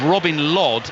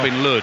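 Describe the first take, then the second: First: The surname rhymes with 'rod'. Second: The surname rhymes with 'hood'. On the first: "L O D"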